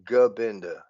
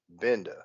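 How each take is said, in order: First: The name begins with a G sound. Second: The name begins without a G sound. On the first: This is how most people say the name. "everybody that says his name says Gabinda" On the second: This is how the speaker thought the name was said. "I've always thought it was just Benda, the silent G"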